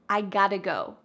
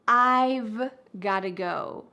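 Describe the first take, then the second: First: 'Have' is dropped and 'got to' reduced. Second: 'I have' is contracted and 'got to' reduced. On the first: "we cut out the verb have completely" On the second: "we often reduce this to"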